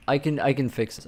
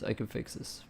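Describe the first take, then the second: First: Said in the usual way. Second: Whispered self-reassurance; whispering. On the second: Real, not acted. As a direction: say it under your breath. Repeats phrase, then whispers it.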